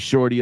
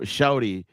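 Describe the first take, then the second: First: It is said the Northern way, with a clear r. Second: It is said the Southern way, like shawty.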